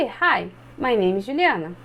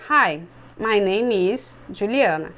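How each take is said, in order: First: Said in the usual way. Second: Slow and lower, like a nervous student reading the line; student reading from paper, slow and lower. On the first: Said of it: "olhar pro colega e vai repetir". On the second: Shown as a demonstration. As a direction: read it stiffly, eyes on the page. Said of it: "vão tentar ler assim".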